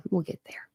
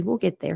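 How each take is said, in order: First: Breathy whispered repeat. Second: Said in the usual way. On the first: Real, not acted. Reassuring J C in the chat, whispered. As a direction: whisper it back as a secret aside.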